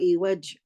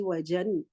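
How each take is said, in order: First: The word ends abruptly on a consonant. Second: The word ends with a short vowel plus n. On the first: "or evaj" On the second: "I don't say evajan"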